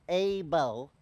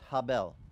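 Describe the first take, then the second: First: The name starts directly with a vowel. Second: The name starts with a breathy h sound. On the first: This is the American form of the name. "Abel is an American translation for you. That's speaking American" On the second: This is the Hebrew form of the name. "in Hebrew, Abel's name is pronounced Habel"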